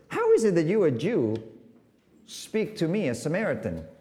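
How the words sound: It is said in a cynical tone.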